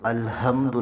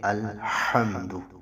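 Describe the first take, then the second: First: The h sound is a plain, light breath. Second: The h sound comes from the middle throat. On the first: The speaker calls it wrong. "अल्हम्दु नहीं पढ़ना" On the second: The speaker calls it right. "हा को वसत हल्क से आपने निकालना है।"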